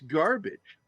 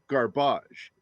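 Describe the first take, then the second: First: It is said with a plain English accent. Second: It is said with a put-on French accent.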